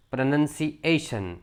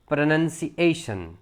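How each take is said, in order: Both takes have the same delivery.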